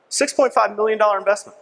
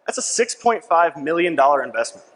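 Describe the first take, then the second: First: Higher, stress on "point"; emphatic repeat. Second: Said in the usual way. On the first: Real, not acted. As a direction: hammer the figure home.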